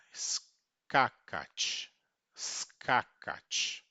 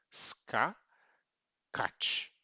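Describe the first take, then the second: First: "Skakat" joined, loud stress on first ka; paroxítona. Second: "Ska, kat" split into two syllables with a long pause; divisão silábica. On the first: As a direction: say "Skakat" as one word, SKA-katch, with tch glued on. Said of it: "a pronúncia dela como sendo uma paroxítona". ("Skakat" numa palavra, tônica no primeiro ka) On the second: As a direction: break after "Ska", then "kat" ending in tch. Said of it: "na divisão silábica". ("Ska... kat" sílaba por sílaba) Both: Shown as a demonstration.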